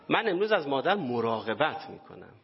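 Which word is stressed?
مراقبت. The stress falls on the word for care.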